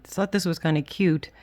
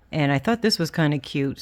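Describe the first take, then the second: First: Said in the usual way. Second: Whistling s through the teeth; s sounds whistle past the teeth. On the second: Real, not acted. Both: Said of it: "Sorry about the whistle of my teeth".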